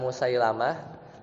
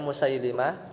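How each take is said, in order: First: The vowel after 'Musail-' is an 'a'. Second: The vowel after 'Musail-' is an 'i'. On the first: The speaker calls it wrong. "bukan Musailamah" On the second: The speaker calls it right. "bacanya Musailimah"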